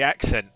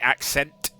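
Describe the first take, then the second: First: The final T sound is left off. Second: The final T sound is clearly pronounced. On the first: "there's a T on the end of it that I don't pronounce" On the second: "Most people would say accent"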